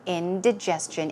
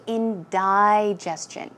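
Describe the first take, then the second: First: "Indigestion" with short i, in-dih-JES-chun; short-i variant. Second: "indigestion" with second syllable like "die"; alternative pronunciation. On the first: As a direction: say the second syllable of "Indigestion" as dih. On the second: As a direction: say "indigestion" as in-dye-JES-chun. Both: Shown as a demonstration. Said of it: "you can also say".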